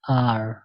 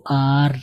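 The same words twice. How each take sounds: First: आर a little heavy, low-pitched; slightly thickened R. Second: आर with a long open aa, not thickened; wrong letter name R. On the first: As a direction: say आर lower, gently thickened without overdoing it. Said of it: "थोड़ा सा आप मोटा करके". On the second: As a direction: say आर thin and open, the common way. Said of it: "आर नहीं पढ़ेंगे". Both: Shown as a demonstration.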